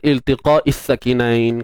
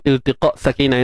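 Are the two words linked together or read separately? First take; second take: linked; separately. First: The two words are joined by a linking vowel. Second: The two words are read apart, unlinked. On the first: "kalau kita gabungkan" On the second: "Kalau kita baca pisah-pisah"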